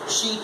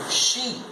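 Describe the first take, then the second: First: The word is said with a reduced vowel. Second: The word is said with a full vowel. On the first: "she is the weak form" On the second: "She is the strong form"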